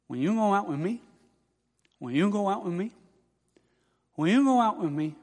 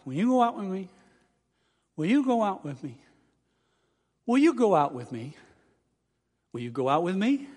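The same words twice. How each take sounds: First: "Will you" slurred toward "wen you", lightly imitated impediment; unclear speech. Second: "Will you go out with me" carefully articulated, growing clearer; clearer speech. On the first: Student practising at mirror, unclear "Will you". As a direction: blur the L in "Will" into an N. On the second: Retold or imitated. Student practising at mirror, "Will you" getting clearer. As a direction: say the L in "Will" distinctly. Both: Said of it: "the clearer it got".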